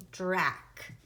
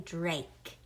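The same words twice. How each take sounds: First: "Drac" with a short A, as in back. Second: Said in the usual way. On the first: Shown as a demonstration. Teacher showing Drake without its silent E, short A. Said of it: "right now that says Drac". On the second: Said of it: "I need it to say Drake".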